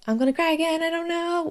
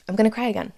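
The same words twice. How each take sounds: First: Choked up, pitch jumping much higher as the tears come; about to cry. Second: Said in the usual way. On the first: Real, not acted. Vlogger telling viewers her baby news, tearfully breaking high.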